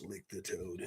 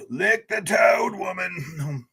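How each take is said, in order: First: Low, soft muttered read of the phrase. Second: Playful slow shout. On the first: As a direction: mumble it to yourself first. Reads chat's phrase first. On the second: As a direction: roar it out like a silly battle cry. Shouts chat's phrase playfully. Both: Acted.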